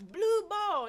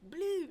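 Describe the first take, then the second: First: Put-on loud, high referee's call in a Baltimore accent. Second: High, loud mimicry of a Baltimore accent; mocking Baltimore echo. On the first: Referee calls out the team color, Baltimore accent shouted. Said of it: "I done picked up the Baltimore accent". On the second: Crowd repeats the referee's call, mocking the Baltimore accent. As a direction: parrot the word back with a Baltimore twang. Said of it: "I hear them saying it after me".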